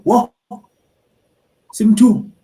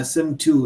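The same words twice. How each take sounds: First: High, loud shocked "Whoa, Sim two"; shocked gasp. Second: Said in the usual way. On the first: Retold or imitated. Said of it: "and they go". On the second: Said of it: "you say something like".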